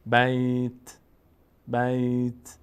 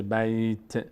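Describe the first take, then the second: First: Long, level بیت with a bare t release; only t heard. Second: بیت said as "bayte", an extra e at the end; vowel wrongly added. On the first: Teacher models the correct stop, only t heard. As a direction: draw out بیت, let only the t sound at the end. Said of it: "فقط صدای ت ظاهر بشه". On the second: Teacher warns against moving the letter, vowel wrongly added. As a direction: let the t of بیت spill into an e. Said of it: "زیاد حرکت نباید بدیم، نشه". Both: Shown as a demonstration.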